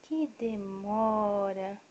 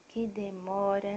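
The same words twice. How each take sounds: First: Very slow, stretched-out complaint; hammed-up long sigh of waiting; drawn-out mock impatience. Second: Slowish playful sigh of waiting; lightly drawn-out complaint; mock impatience. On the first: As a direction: stretch every syllable of the wait. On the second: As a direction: tease about how long dad takes. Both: Real, not acted.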